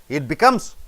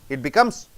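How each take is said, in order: The two takes are said the same way.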